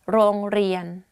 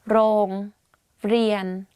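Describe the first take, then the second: First: The word is said quickly and smoothly. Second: The word is said slowly and carefully. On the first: "and say it faster" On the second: "so r sound"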